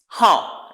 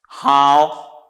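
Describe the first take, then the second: First: The pitch falls sharply once. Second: The pitch dips down and then rises. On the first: It means number or date. "This one has a fourth tone, just descending once" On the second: It means well or good. "because it has a third tone, descending then ascending"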